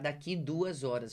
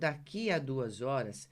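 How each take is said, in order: First: The 'a' before 'duas' is left out. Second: The 'a' before 'duas' is clearly pronounced.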